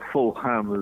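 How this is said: The name is said the American way.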